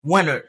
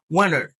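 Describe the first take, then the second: No difference in how they are said.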